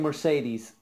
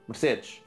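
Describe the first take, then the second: First: The name is said with an English pronunciation. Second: The name is said with a Portuguese pronunciation. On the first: "I'm saying Mercedes as you would say in English" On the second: "If I was to say Mercedes in Portuguese"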